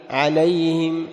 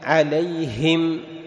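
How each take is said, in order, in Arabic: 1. صوت الهاء وحركته ضعيفان. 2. الهاء فيها نفَس، وحركتها مجهورة تماما. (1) "ما تقول عليهم" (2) "تدفع نفس الهاء وتنزل الفك عند كسرة الهاء"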